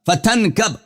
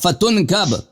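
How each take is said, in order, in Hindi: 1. 't' के बाद का स्वर 'a' है। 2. 't' के बाद का स्वर 'u' है। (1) "ये तनकब है यहां पे" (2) "यहां पे तुनकब ये गलत है"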